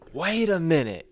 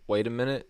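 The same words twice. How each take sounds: First: It is yelled loudly. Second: It is mumbled quietly.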